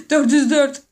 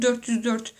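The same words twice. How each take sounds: First: "Dört yüz dört" louder, rising on "yüz"; exclaimed. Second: Said in the usual way. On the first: Real, not acted. Exclaiming "Dört yüz dört" to viewers, louder with a rise on "yüz". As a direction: blurt "Dört yüz dört" out loud with a lift on "yüz". Repeats the number after laughing.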